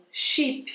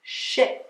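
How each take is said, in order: First: Sheep with a long ee, soft. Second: She said short and soft. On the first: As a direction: stretch the ee in sheep. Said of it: "você tem o I longo". (i longo em sheep) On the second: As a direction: clip the vowel. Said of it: "som do I abafado". (i abafado) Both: Shown as a demonstration.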